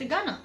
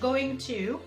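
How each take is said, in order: First: The words merge into a reduced 'gonna'. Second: Both words are pronounced in full. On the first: The speaker calls it right. "قلت gonna" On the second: The speaker calls it wrong. "ما قلتش going to"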